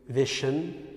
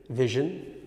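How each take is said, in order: No difference in how they are said.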